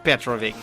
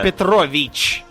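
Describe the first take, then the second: First: The name ends without a 'ch' sound. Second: The name ends with a 'ch' sound. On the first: The speaker calls it wrong. "not Petrovic" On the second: The speaker calls it right. "Petrovich, not Petrovic"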